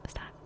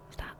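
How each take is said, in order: Both takes have the same delivery.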